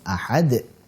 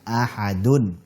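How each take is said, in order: First: It ends on a bounced d with no vowel. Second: It ends with a vowel and n after d. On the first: The reading stops after this word. "Kalau waqaf ahad, dalnya sukun jadi qalqalah" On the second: The reading continues into the next word. "ketika wasol maka ahadun"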